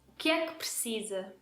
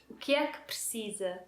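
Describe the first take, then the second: Both takes have the same delivery.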